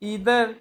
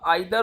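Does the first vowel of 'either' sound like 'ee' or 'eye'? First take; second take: ee; eye. First: The first vowel sounds like 'ee'. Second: The first vowel sounds like 'eye'.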